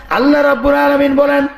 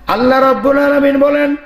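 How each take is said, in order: Both takes have the same delivery.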